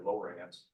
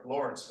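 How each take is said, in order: First: "Lawrence" said as lo-RANCE, rhyming with dance; alternative pronunciation. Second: Said in the usual way. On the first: Shown as a demonstration. Historian unsure of old house's name, "Lawrence" as lo-RANCE. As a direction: give "Lawrence" a full "rance" ending, lo-RANTS. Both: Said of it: "How would you pronounce that".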